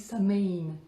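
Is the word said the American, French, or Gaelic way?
American. The word is said with an American pronunciation. "À l'américaine, ça se dit Samain"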